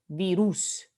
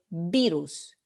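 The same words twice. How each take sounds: First: The stress is on the last syllable. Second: The stress is on the first syllable. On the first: The speaker calls it wrong. "We don't say virus" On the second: The speaker calls it right. "You say virus. ... es la primera sílaba que es tónica"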